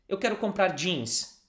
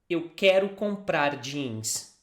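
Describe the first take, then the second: First: It is said at a faster pace. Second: It is said at a slower pace.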